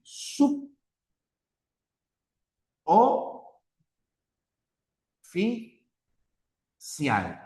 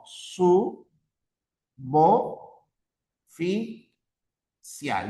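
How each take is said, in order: First: "sub... o... fi... cial", b closing the first syllable, long pauses; incorrect syllable separation. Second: "Su... bo... fi... cial", b starting the second syllable, paused; correct syllable separation. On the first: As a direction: break it as "sub / o / fi / cial", each piece alone. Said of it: "la separación incorrecta sería así". ("sub, o, fi, cial" separado, con la b cerrando la primera sílaba)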